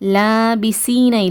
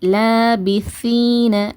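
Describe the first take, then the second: First: The consonant is a plain hissing s. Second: The consonant is a th, tongue at teeth. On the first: The speaker calls it wrong. "இல்லை" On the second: The speaker calls it right. "இந்த மாதிரி உச்சரிங்க"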